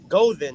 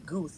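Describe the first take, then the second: First: The word has two syllables, ending in an uh sound. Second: The word has one syllable, like goose. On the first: The speaker calls it right. "pronounce it gozer" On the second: The speaker calls it wrong.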